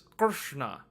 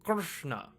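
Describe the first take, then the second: The two takes are said the same way.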